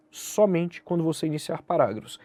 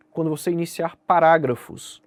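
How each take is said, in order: First: Somente stressed, the rest flowing evenly. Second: Said in the usual way. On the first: Shown as a demonstration. Teacher to exam students, stressing somente. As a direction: lean on the word somente to limit it.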